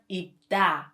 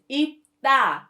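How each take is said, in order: First: The second consonant is a plain d sound. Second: The second consonant is a tense d sound. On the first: The speaker calls it wrong. "not 입다" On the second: The speaker calls it right. "the correct pronunciation is 입다"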